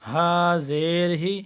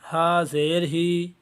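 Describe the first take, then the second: First: The final vowel is short and smooth. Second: The final vowel is drawn out long. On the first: The speaker calls it right. "अब यह सही पढ़ा गया है।" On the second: The speaker calls it wrong. "ये भी गलत है।"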